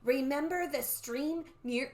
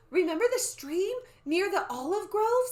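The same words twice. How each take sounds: First: Slow, drawn-out eerie reminder; measured, mysterious old-woman voice; old lady voice. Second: High, loud eager question; bright-pitched child character voice; young Annie's voice. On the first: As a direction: intone it like the old soothsayer. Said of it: "oops, that's not the old lady talking". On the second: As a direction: ask it as an excited girl. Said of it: "I have to use a different voice". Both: Acted.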